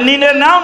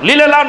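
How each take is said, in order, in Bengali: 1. শব্দ দুটো n ধ্বনি দিয়ে শুরু হয়। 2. শব্দ দুটো l ধ্বনি দিয়ে শুরু হয়। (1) "আপনারা বলেন নেও" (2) "আমার পাবনায় গিয়ে বলে লেও"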